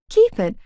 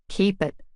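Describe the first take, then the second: First: High, loud disbelieving echo; shocked echo. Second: Said in the usual way. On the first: A narrator's reading. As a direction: repeat it in disbelief. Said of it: "I stared blankly".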